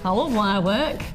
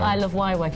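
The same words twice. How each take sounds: First: It is said in a marked, emphatic way. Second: It is said in a plain, ordinary way. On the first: The speaker calls it right. "You go" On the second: The speaker calls it wrong. "You don't say it normally. You don't just go"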